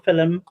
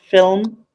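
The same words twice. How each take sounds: First: It is said in the speaker's regional accent. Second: It is said the common British way. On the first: This is how the speaker personally says it. "So I say films or film" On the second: This is how most of the country says it. "and they say film"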